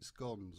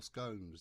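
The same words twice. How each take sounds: First: "scones" rhyming with "gons", short o. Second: "scones" rhyming with "cones", long o. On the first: Teacher reading out a recipe offers one pronunciation, short-o "scones". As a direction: say "scones" with the short vowel of "gone". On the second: Teacher offers learners the other pronunciation, long-o "scones". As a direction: say "scones" with the long vowel of "bone". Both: Shown as a demonstration. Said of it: "depending on which way you say it".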